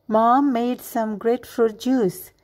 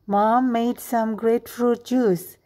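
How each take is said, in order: No difference in how they are said.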